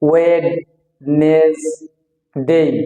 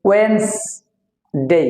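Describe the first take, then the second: First: The word is said with three syllables. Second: The word is said with two syllables. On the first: The speaker calls it wrong. "আমরা অনেকে তিনটা সিলেবালে ভাগ করে বলি" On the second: The speaker calls it right. "আসলে সঠিক উচ্চারণ হবে ওয়েন্স ডে, এখানে দুইটা সিলেবাল হবে"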